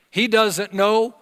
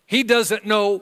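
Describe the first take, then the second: No difference in how they are said.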